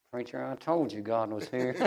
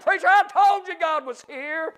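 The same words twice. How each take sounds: First: Low, quiet imitation of an old man; soft old saint. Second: High-pitched revival preaching cry; exultant proclamation. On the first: Crying old brother to his preacher, softly imitated. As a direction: say it humbly, well under full voice. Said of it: "He just, real slow". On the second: Real, not acted. Preacher repeating old brother's words to church, exultant cry.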